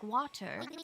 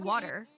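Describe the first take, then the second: First: The middle consonant is a crisp T sound. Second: The middle consonant is a soft D sound. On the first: "not really with a T" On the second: "it's with a D"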